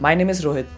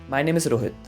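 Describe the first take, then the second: First: The ending is quick and pitched higher. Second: The ending is slowed down and pitched lower. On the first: The speaker calls it wrong. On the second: The speaker calls it right.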